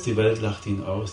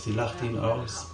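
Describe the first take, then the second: First: Said in the usual way. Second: Softer and slower, letting it sink in; quiet, slow echo. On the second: Acted. Preacher echoing his point to the congregation, hushed and slow. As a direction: drop to a hushed, slow repeat. Repeated line, second softer.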